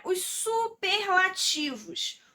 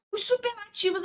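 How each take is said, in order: First: "superlativos" said slowly and stressed; slow down and stress "superlativos" as a heading; announcing new topic. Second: Said in the usual way. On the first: Shown as a demonstration. Teacher announces the superlatives topic, slow and stressed.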